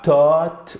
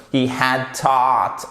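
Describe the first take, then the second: First: "taught" mispronounced with a plain vowel, not between A and O; slow wrong example of "taught" with a French vowel. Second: "taught" with an open vowel between A and O; slow model "He had taught", "taught" between ah and oh. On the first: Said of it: "c'est pas un A à la française". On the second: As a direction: say "taught" slowly, rounding the A towards O. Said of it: "c'est entre le A et le O". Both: Shown as a demonstration.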